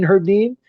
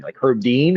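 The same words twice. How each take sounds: First: High, louder disbelieving echo of the name, "Herb Dean?"; incredulous. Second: Said in the usual way. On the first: Retold or imitated. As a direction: repeat "Herb Dean?" as if you can't believe it. Retold disbelief at Herb's class.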